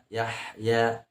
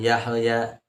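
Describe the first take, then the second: First: The h flows smoothly with breath, no bounce. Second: The h is cut off with a bouncing echo. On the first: The speaker calls it right. "Yahya harus keluar hamas dan rokhwahnya" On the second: The speaker calls it wrong. "bukan Yahya"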